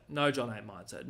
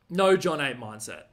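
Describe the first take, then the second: First: Said in the usual way. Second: Slow, louder, punching NO in "no John eight mindset"; emphatic no. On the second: Shown as a demonstration. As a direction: lean hard on "no", said slowly and loud. Repeats phrase with emphasis.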